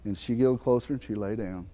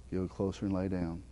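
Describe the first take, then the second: First: Said in the usual way. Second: "Giggled closer and lay down" repeated much softer and lower. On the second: Real, not acted. Pastor lingering on the moment the dog came near, soft and hushed. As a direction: echo the words gently, letting them sink in.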